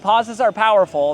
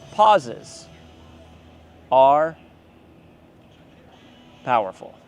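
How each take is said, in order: First: It is said straight through without a pause. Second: It is said with a dramatic pause inside.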